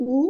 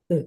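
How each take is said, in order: First: Said in the usual way. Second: উ drawn out with teeth lightly pressed together; long u, teeth clenched. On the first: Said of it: "এটা হচ্ছে উ". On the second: Shown as a demonstration. Teacher contrasts long উ for students, teeth lightly clenched. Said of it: "দীর্ঘ উ এর উচ্চারণ হবে হালকা দাঁতে দাঁত চেপে উ".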